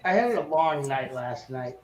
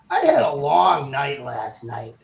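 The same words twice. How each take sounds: First: It is read in the speaker's ordinary voice. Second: It is said in an imitated, put-on voice.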